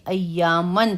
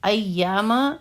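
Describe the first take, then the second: First: The word ends with an 'n' sound. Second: The word ends on a plain vowel. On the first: The speaker calls it wrong. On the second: The speaker calls it right.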